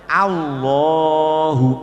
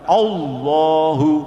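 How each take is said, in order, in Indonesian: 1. Vokal pertama adalah 'a' yang tipis dan jelas. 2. Vokal pertama adalah 'o' yang membulat. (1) "harusnya Allahu Akbar" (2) "bukan Allahu"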